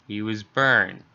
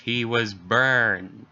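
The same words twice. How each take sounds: First: Said in the usual way. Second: He was burned drawn out slowly in shock; halting shocked repeat; slow, stunned repeat. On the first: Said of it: "Jesus Christ, he was burned". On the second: Acted. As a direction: let burned sink in, slow. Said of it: "Jesus Christ".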